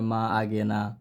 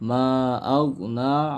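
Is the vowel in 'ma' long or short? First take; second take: short; long. First: The vowel in 'ma' is cut short. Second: The vowel in 'ma' is drawn out long. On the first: The speaker calls it wrong. "বেশিরভাগ মানুষ এখানে পড়ে মা আগে না, এখন টানও দেয় না।" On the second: The speaker calls it right. "এখানে মার মধ্যে তিন এলিফ টান আছে।"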